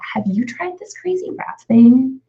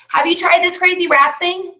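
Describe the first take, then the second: First: It is said in a lower, deeper voice. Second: It is said in a higher, louder voice.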